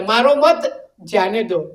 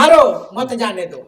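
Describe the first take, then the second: First: मारो मत as one unit, pause, जाने दो; slow and low, break before "जाने दो"; pause after मत. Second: मारो alone, pause, then मत जाने दो; slow, break before "मत जाने दो"; pause after मारो. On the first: (मत के बाद विराम) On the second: (मारो के बाद विराम) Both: Shown as a demonstration. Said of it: "कहने का अंतर है".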